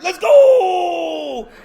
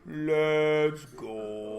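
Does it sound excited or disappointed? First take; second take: excited; disappointed. First: It sounds excited and happy. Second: It sounds flat and disappointed.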